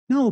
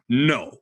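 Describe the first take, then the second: First: The word is said mildly, without force. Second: The word is said sternly, with firm force. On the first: The dog ignores the command. The speaker calls it wrong. "if I'm just like" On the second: The dog stops everything and obeys. The speaker calls it right. "But if I'm like"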